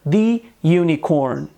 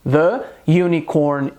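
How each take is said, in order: First: 'The' is said with a long 'thee' vowel. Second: 'The' is said with a short 'thuh' vowel. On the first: The speaker calls it wrong. "não diga" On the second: The speaker calls it right. "a gente deve dizer"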